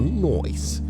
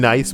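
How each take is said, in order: First: The word is said with a changed vowel. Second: The word is said with its usual vowel. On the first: "but instead you go noise" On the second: "you say nice"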